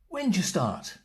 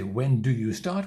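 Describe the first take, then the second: First: 'When do' is squeezed into one syllable. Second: Every word is said fully and separately. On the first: The speaker calls it right. "We say" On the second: The speaker calls it wrong. "We don't say"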